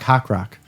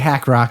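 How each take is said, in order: First: The first word has the vowel of 'hawk'. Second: The first word has the vowel of 'hack'. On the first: The speaker calls it right. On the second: The speaker calls it wrong. "it wouldn't be Hack Rock"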